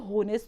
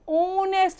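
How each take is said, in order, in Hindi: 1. शब्द की शुरुआत में स्पष्ट h ध्वनि सुनाई देती है। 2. शब्द सीधे स्वर ध्वनि से शुरू होता है। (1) "अब इसको होनेस्ट तो नहीं पढ़ते" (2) "हम ओनेस्ट पढ़ते हैं"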